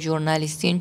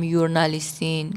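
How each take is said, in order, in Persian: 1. کلمه با صدای 'zh' شروع میشه. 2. کلمه با صدای 'y' شروع میشه. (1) "گفتم ژورنالیستین؟ چون ژورنالیست یک واژه فرانسویه" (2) "چرا نگفتم یورنالیستین"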